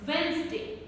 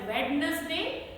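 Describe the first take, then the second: First: No d sound is heard in the middle. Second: A d sound is heard in the middle. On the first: The speaker calls it right. "The correct one is ... This D is not pronounced" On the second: The speaker calls it wrong. "they mispronounce this word as"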